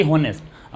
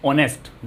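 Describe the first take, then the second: First: हॉनेस्ट with an audible H at the start; sounded H. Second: ऑनेस्ट with the H silent. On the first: Teacher showing what not to say, हॉनेस्ट with sounded H. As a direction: wrongly voice the H in हॉनेस्ट. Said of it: "हॉनेस्ट तो होता नहीं है ना". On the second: Teacher showing how the word sounds, ऑनेस्ट with silent H. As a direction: start ऑनेस्ट straight on the O vowel. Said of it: "हम sound क्या produce कर रहे हैं?". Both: Shown as a demonstration.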